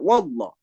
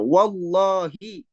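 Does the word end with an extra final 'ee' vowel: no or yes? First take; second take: no; yes. First: The word ends without the final vowel. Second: The word ends with a final 'ee' vowel. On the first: The speaker calls it wrong. "tidak bisa wallah" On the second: The speaker calls it right. "melafazkannya dengan benar. Wallahi"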